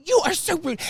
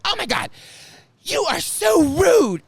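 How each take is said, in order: First: A sneering, high-pitched retort; high mock scold. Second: Loud scolding shout. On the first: Karen scolding the speaker again, much higher, mildly mocked. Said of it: "And she starts". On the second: Retold or imitated. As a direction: bellow it out so the whole room turns. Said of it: "and so loud".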